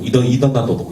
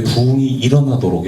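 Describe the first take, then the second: First: "일어나도록" stumbled over, restarted and slurred; tongue-tied mispronunciation. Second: Said in the usual way. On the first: Shown as a demonstration. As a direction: trip over "일어나도록" with a false start. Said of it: "발음이 되게 안 되더라고요". (혀가 꼬여 "일어나도록"을 더듬는 발음) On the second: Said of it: "이렇게 발음해야 되는데".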